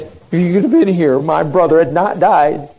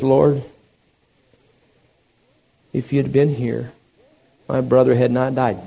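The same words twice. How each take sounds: First: Loud, raised-pitch accusation; forceful reproach. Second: Slight, understated sorrow; subdued grief. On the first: Martha confronting Jesus over her brother's death, forceful reproach. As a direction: throw the blame at him, louder and higher. Martha's words, contrasted with Mary's. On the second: Weeping Mary at Jesus' feet, subdued grief. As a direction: say it gently with halting pauses, mildly mournful. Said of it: "she begins to weep". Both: Acted.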